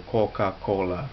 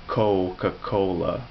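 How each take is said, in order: First: "Coca-Cola" as a Chinese speaker would say it; Chinese-accented demo of "Coca-Cola". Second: "Coca-Cola" slow, with English diphthong o; drawn-out English-accented "Coca-Cola". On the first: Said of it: "I'd say it like a Chinese person". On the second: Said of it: "I wouldn't say Coca-Cola". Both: Shown as a demonstration.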